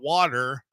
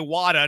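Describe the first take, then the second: First: The word ends with an r-colored vowel. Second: The word ends in a plain vowel, no r. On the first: The speaker calls it wrong. "not water" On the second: The speaker calls it right. "you got to say Wada"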